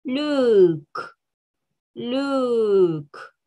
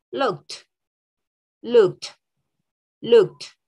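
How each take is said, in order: First: "look" with a long drawn-out vowel, released "k"; slow, careful "look"; exaggerated base form. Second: "looked" ending in a crisp "kt"; final t sound. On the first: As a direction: stretch "look" for learners. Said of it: "Yo lo exagero un poco". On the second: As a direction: say "looked" as one short "lookt". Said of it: "That was the first sound". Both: Shown as a demonstration.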